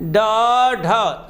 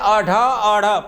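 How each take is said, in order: First: The vowel sound follows each consonant. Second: The vowel sound precedes each consonant. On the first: "ड के बाद अ आ रहा है, ढ के बाद अ आ रहा है ना" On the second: "पहलवें स्वर पढ़ दिया आपने"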